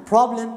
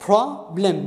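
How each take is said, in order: First: Said in the usual way. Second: "problem" split into two beats, pro, blem; syllable by syllable. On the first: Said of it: "أنقر وياها". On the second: Shown as a demonstration. Teacher counting syllables for students, "problem" in two separate beats. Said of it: "مقطعين".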